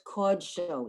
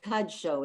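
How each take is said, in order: First: The first vowel is a rounded 'oh' sound. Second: The first vowel is an open 'ah' sound. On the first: The speaker calls it right. "we're going to pronounce that kamatz, that little T vowel, as or" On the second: The speaker calls it wrong. "It's not kad show"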